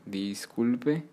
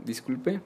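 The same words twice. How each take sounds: First: A mildly curt "disculpe", closed off at the end; curt intonation. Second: "disculpe" lifted at the end like a question; questioning intonation. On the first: Teacher showing learners another intonation, mildly curt. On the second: Teacher translating excuse me for beginners, questioning intonation. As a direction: say "disculpe" with a rising, asking tune. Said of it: "puedes cambiar la entonación". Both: Shown as a demonstration.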